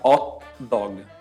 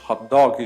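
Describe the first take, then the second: First: It is said with an Italian accent, no h. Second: It is said with an English accent. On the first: "Em italiano a gente fala hot dog, sem pronunciar o H" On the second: "Que a gente falaria em inglês"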